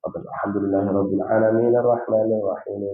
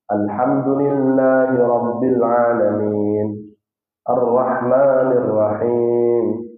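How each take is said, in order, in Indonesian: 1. Dibaca cepat tanpa jeda di antara ayat. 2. Dibaca dengan jeda singkat setelah setiap ayat. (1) "boleh membacanya dengan agak cepat" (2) "setiap nomor ayat Nabi akan berhenti sejenak"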